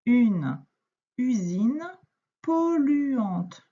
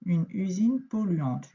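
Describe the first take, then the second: First: Word by word with pauses for a beginner reader; slow read-aloud. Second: Said in the usual way. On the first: Shown as a demonstration. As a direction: read each word apart. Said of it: "Le groupe de mots suivant".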